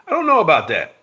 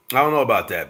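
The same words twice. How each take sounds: First: Loud, high doubting protest; emphatic doubt. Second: Said in the usual way. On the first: Real, not acted. Pushing back on the chat, loud and doubtful. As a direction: push back hard on the claim.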